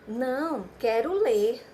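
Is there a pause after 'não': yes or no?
yes. There is a pause after não.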